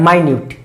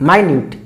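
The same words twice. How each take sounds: The two takes are said the same way.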